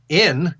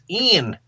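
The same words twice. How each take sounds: First: The word is said crisply in standard English. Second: The word is drawn out in a Southern drawl. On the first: The speaker calls it wrong. "he's enunciating every word" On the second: The speaker calls it right. "to sing with a Southern drawl"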